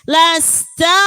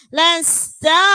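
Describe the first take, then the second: The two takes are said the same way.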